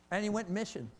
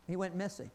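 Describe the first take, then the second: First: "mission" said by mistake instead of "missing"; slip of the tongue. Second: Said in the usual way. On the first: Real, not acted. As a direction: stumble and say "mission".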